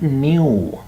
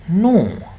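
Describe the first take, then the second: First: It is not said the American English way. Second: It is said the American English way. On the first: The speaker calls it wrong. "not new" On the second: The speaker calls it right. "In American English, that is no"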